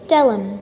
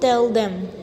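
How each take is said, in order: First: The 'th' sound is dropped, blending into 'tellum'. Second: The 'th' sound of 'them' is clearly pronounced.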